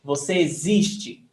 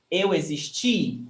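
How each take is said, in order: First: Existe with a long ZIS and light te; stress on ZIS. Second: Existi with the final TI long and strong; stress on TI. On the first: Teacher showing the present form, stress on ZIS of existe. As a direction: lean on the middle syllable of existe. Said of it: "So the stressed syllable is". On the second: Teacher showing the past for eu, stress on final TI. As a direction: land on the last syllable, CHEE, of existi. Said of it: "the stressed syllable is ti". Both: Shown as a demonstration.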